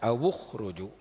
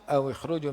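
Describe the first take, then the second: First: The w is followed by a u vowel. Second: The w is followed by an i vowel. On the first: This is the reading of most reciters. "dhammah waw" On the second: This is the reading of a minority of reciters. "dikasrahkan waw aw ikhruju"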